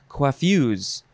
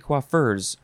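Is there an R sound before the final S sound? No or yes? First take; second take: no; yes. First: No R sound comes before the final S. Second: An R sound comes before the final S. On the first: "or you can say coiffues" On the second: "Even though there's no R in there, you can say coiffeurs"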